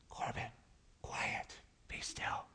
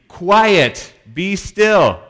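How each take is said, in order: First: Hushed unvoiced whisper; whispered to Corbin as a joke. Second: Loud, higher booming command; Jesus rebuking wind and waves, loud command; commanding rebuke. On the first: Shown as a demonstration. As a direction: breathe it out with no voice. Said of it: "He didn't say it like that". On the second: Retold or imitated. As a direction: order the storm to stop.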